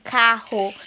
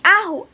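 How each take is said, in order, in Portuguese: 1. A palavra começa com um som de k bem claro. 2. A palavra começa com vogal, sem o k. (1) "a palavra certinha, assim, carro" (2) "Ele apontava assim, arro"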